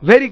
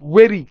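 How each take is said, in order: First: The word begins with a v-like sound. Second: The word begins with a w-like sound. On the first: The speaker calls it wrong. "বাঙালিরা ভ দিয়ে উচ্চারণ করি" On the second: The speaker calls it right. "আসলে এখানে ভেরি না হয় কি হবে"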